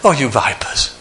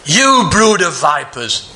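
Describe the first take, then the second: First: It is said softly and gently. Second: It is said harshly with venom.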